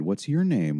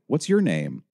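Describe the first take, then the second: First: Mildly melodramatic, lilting question; understated syrupy phone-helper voice; tiny, melodramatic. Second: Higher, chatty raised question; chatty phone helper speaking up; louder, too conversational. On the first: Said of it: "a tiny, melodramatic voice came on the phone". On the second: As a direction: ask again more audibly, casually friendly. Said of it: "David's voice was instantly louder and yet too conversational". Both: A narrator's reading.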